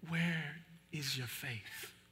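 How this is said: It sounds gentle, like a caring father.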